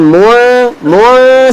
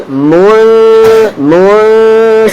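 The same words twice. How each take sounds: First: "mul" held without readying the lips for f; wrong nasal. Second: "mul" hummed long, lips readying for f; correct held nasal. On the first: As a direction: hum "mul" in the wrong place, away from the f. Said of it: "Salah, bukan". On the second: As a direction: hold "mul" as a nasal hum poised before fa. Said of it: "Yang betul". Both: Shown as a demonstration.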